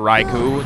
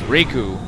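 First: The first syllable sounds like 'rye'. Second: The first syllable sounds like 'ree'. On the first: The speaker calls it wrong. "It's not Raikou" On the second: The speaker calls it right. "it's Riku"

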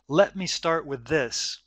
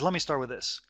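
First: Each word is said fully and separately. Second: The words are run together with sounds dropped. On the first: "he says" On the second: "But what he actually says is"

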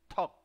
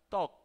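First: The first consonant is a strong aspirated t. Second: The first consonant is a soft unaspirated t. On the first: The speaker calls it right. "empujas el aire hacia afuera y abres de repente" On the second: The speaker calls it wrong. "no suena toc, toc es otra cosa"

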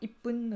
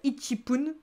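First: 'ichi' shrinks to a doubled 'p' sound. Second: The full syllable 'ichi' comes before 'pun'. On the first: The speaker calls it right. "Ce sera ippun" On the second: The speaker calls it wrong. "On peut pas dire ichipun"

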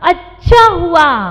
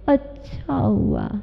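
First: The voice sounds bright and cheerful. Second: The voice sounds flat and unenthusiastic. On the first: It really went well. "और यदि कहा जाता अच्छा हुआ" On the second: It actually did not go well. "अच्छा हुआ मतलब अच्छा नहीं हुआ"

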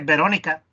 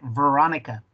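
First: It is pronounced with Spanish sounds and stress. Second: It is pronounced with English sounds and stress. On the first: "En español se dice" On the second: "en inglés se dice"

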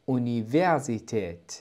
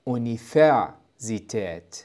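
First: The v is sounded as a voiced v. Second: The v is sounded as a voiceless f. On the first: The speaker calls it right. "هي تنطق أونيفرسيتيت" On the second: The speaker calls it wrong. "وليس أونيفرسيتيت، لأن حرف الفاء ينطق فيه فيه"

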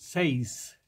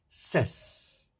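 First: The vowel is a long 'ay' sound. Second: The vowel is a short 'e' sound. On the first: The speaker calls it wrong. "muchos pronuncian seis" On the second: The speaker calls it right. "y es ses"

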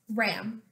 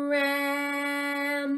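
First: The word is said quickly, as one short word. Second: The word is stretched out, each sound held. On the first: "Your turn to say it fast" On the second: "I'm going to sound out the word without stopping between the sounds"

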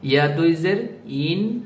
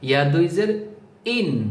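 First: The final syllable flows out smoothly without a jolt. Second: The final syllable comes out with an abrupt jolt. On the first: The speaker calls it right. "স্বাভাবিকভাবে বলতে হবে, কোনো টক্কর লাগবে না" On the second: The speaker calls it wrong. "টক্কর লাগিয়ে বলা যাবে না"

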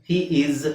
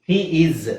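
No difference in how they are said.

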